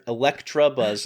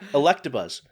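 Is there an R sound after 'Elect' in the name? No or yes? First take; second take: yes; no. First: The name has an R sound after 'Elect'. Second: The name has no R sound after 'Elect'.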